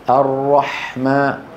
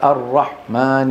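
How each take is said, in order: First: The breathy h sound is strong. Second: The breathy h sound is weak. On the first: The speaker calls it right. "يجب أن يقول الرحمن" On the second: The speaker calls it wrong. "ضعف همسها"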